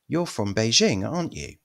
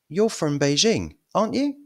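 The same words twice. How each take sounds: First: The voice falls at the end of the tag. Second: The voice rises at the end of the tag. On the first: The speaker is fairly sure it is true. "Falling intonation means you're fairly sure" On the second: The speaker is unsure and wants it confirmed. "The rising intonation means you're not very sure"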